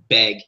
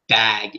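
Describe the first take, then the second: First: The vowel sounds close to 'e' as in 'beg'. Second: The vowel is a standard open 'a' sound. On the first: "when they say bag, it's beg" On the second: "it's not bag"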